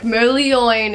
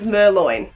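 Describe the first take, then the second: First: The name is said with extra syllables. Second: The name is said with fewer syllables. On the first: The speaker calls it right. "it's like giving that a little bit of extra" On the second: The speaker calls it wrong. "I used to think his name was Merloin"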